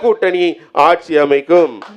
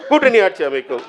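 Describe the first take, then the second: First: The phrase is said slowly and clearly. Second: The phrase is said quickly. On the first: "இன்னும் தெளிவா சொல்றேன்" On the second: "வேகமா சொல்லணுமா?"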